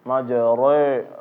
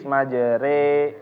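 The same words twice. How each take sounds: First: The r sound is heavy and thick. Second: The r sound is light and thin. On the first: The speaker calls it wrong. "jangan membacanya dengan tafkhim, majere, re, ha, salah" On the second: The speaker calls it right.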